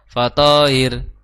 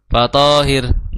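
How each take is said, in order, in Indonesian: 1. Vokal panjang, lalu h tunggal yang ringan. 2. Vokal panjang, lalu h tunggal yang ringan.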